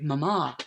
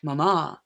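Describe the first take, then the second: First: It is said in a British accent. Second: It is said in a British accent.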